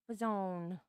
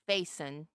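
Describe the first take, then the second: First: The name has a French-style pronunciation. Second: The name has a plain English pronunciation. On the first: "the French pronunciation of my name" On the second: "he wouldn't say Faison"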